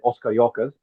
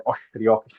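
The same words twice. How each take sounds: First: Said in the usual way. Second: Os cariocas with the s sounds turned to sh, oshcarioca; Rio accent pronunciation. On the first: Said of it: "in the normal Brazilian accent". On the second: Shown as a demonstration. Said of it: "but in the case of Rio".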